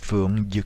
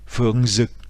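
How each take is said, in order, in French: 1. Le deuxième mot commence par un son y. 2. Le deuxième mot commence par un son z. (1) "en vietnamien du sud" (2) "en vietnamien du nord"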